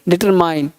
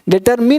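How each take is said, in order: First: The last vowel sounds like 'eye'. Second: The last vowel sounds like 'ee'. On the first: The speaker calls it right. "M के बाद आ आएगा तो डिटरमाइन" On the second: The speaker calls it wrong. "डिटरमिन नहीं"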